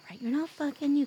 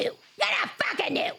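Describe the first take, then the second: First: Said in the usual way. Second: High playful shout; yelling. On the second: Acted. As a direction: shout it, teasing. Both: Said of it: "I have to yell at you".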